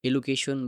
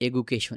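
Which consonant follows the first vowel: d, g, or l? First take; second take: l; g. First: The consonant after the first vowel is l. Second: The consonant after the first vowel is g. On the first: "সেটা উচ্চারণ ঠিকমতো হলো না" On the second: "সেটা উচ্চারণ ঠিকমতো হলো না"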